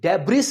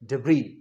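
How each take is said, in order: First: The word ends with an audible 's' sound. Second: The word ends on a vowel, no 's'. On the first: The speaker calls it wrong. "डेब्रिस नहीं" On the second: The speaker calls it right. "ये जो एस है हम नहीं pronounce करेंगे"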